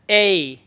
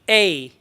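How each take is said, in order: First: The vowel glides in a curved sound. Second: The vowel glides in a curved sound.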